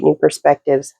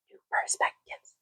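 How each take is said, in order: First: Said in the usual way. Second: Very soft, voiceless whisper; whispered echo. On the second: Real, not acted. Reader echoing a phrase from the reading, whispered. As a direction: repeat it as a hushed whisper.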